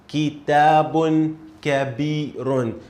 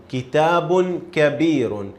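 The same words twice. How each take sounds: First: Kitabun kabirun, slow and clear; slow model reading. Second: Kitabun kabirun read clearly; model reading. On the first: Teacher reads the phrase slowly for a student. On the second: Teacher reads the phrase for a student. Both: Shown as a demonstration. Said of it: "This is how we read this phrase".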